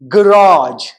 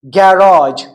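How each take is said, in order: First: It is said with an American accent. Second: It is said with a British accent. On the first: "In American English, it is garage" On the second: "in British English, it is like garage"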